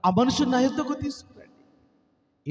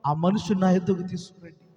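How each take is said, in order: First: Slow and higher, leaning on యొద్దకు; slow emphatic repeat. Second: Said in the usual way. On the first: Acted. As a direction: preach it again slowly, stressing యొద్దకు. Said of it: "repeated for emphasis". (యొద్దకు మీద ఒత్తిడితో నెమ్మదిగా) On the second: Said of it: "ఆగిపోయి అంటున్నాడు".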